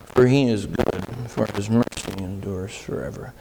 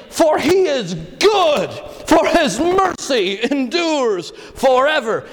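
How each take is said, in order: First: Low, soft, lifeless mumble of the verse; a sleepy murmured recitation; mock mumble. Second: Full-voiced triumphant praise; joyful shout. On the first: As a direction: deliver it like a bored, half-asleep congregation. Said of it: "Do you think that's how they said it?". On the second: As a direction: shout it out like a touchdown cheer. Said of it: "these guys were saying". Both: Shown as a demonstration.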